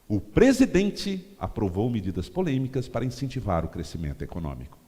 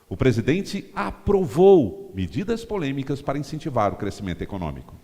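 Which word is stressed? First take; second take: presidente; aprovou. First: The word "presidente" is stressed. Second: The word "aprovou" is stressed. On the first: It appeals to supporters of the president. "Você dá ênfase no presidente" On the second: It appeals to people awaiting the approval. "Você dá ênfase no aprovou"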